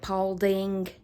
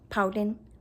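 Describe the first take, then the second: First: The name ends with a clear g sound. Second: The name ends without a g sound. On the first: This is how outsiders say the name. "locals do not pronounce it Paulding" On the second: This is how the locals say the name. "They say Paulding. Actually, there's no G on the end"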